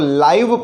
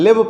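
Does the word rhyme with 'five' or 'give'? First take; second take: five; give. First: The vowel is long, rhyming with five. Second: The vowel is short, rhyming with give. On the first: It means alive or broadcast directly. "लाइव पढ़ रहे हैं तब इसका pronunciation अलग हो जाएगा" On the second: It means to reside somewhere. "जब हम इसको लिव पढ़ते हैं"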